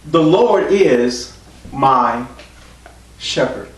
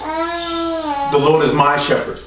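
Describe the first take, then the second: First: Drawn out word by word; slow solemn quote. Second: Higher and slow, fervent; lifted solemn quote. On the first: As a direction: let each word hang, slowly. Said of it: "David said". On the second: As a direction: raise it up and stretch it out. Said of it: "He said". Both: Retold or imitated.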